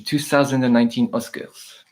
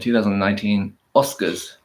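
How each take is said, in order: First: It is spoken with a French-German accent. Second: It is spoken with an English accent. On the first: "I'm going kind of German as well. French German" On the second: "I'm going to repeat it in an English accent"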